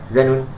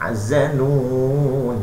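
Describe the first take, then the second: First: The vowel before the final n is cut short. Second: The vowel before the final n is held long. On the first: The speaker calls it wrong. "jangan zanun, tak boleh" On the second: The speaker calls it right. "man arid disebut panjang"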